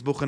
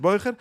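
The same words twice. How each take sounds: First: Bucher with a short "oo" in the first syllable; word form Bucher. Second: Beucher with an "oy" diphthong in the first syllable; word form Beucher. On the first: Teacher asks why the student is called this, Bucher with short "oo". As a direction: say Bucher as "BOO-kher", short vowel. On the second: Teacher sets it against the other word, Beucher with "oy". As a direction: say Beucher as "BOY-kher". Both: Shown as a demonstration. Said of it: "was rief man das Bucher, nicht Beucher".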